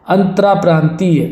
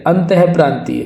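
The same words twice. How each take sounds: First: अंतराप्रांतीय said as "antraa-praantiya"; wrong "antara" prefix. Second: अंतःप्रांतीय said as "antah-praantiya"; correct breath-h prefix. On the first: Teacher shows the mistake, अंतराप्रांतीय with "antraa". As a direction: say "raa" in अंतराप्रांतीय. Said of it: "अंतराप्रांतीय नहीं होता". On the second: Teacher corrects the word, अंतःप्रांतीय with "antah". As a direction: sound the "ah" in अंतःप्रांतीय. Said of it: "क्या होगा, अंतःप्रांतीय". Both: Shown as a demonstration.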